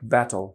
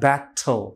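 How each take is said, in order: First: The t is quick and has no puff of air. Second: The t is a strong plosive with a puff. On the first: The speaker calls it right. "আমরা দ্রুত বললে এটা শোনাবে ব্যাটল" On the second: The speaker calls it wrong. "এইভাবে ব্যাটল বা ব্যাটল মানে একটু প্লোসিভ দিয়ে উচ্চারণ নেটিভ স্পিকাররা করেন না"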